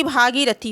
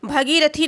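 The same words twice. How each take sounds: First: भागीरथी with long first vowel, bhaa; correct form. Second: भगीरथी with short first vowel, bha; wrong form. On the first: Teacher giving students the right word, correct form. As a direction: lengthen the opening bhaa of भागीरथी. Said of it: "बल्कि भागीरथी होगा". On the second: Teacher showing students the faulty word, wrong form. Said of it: "भगीरथी नहीं बल्कि". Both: Shown as a demonstration.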